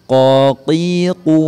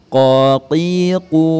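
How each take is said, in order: The two takes are said the same way.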